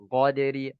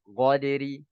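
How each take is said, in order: No difference in how they are said.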